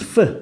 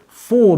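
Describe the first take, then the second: First: The vowel is short and weak. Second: The vowel is long and full. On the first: "they make them lazy" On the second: "These are very long sounds"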